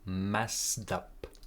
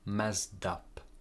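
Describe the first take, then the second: First: The two words are linked together smoothly. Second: The same.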